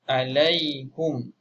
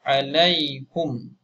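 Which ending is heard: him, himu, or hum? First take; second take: hum; hum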